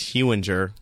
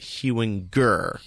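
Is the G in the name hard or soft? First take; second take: soft; hard. First: The G is said soft, like a J. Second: The G is said hard, like in go. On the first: The speaker calls it right. "Soft G" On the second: The speaker calls it wrong. "Or I also get Hewinger"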